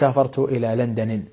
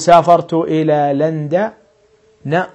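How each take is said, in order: First: The name ends with an 'i' vowel. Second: The name ends with an 'a' vowel. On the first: The speaker calls it wrong. "ولا تقول" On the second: The speaker calls it right. "تقول"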